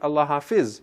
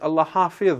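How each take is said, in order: First: It has a local Urdu-style pronunciation. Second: It has an Arabic-style pronunciation. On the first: The speaker calls it wrong. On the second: The speaker calls it right. "if you're going to say it in Arabic, then it is"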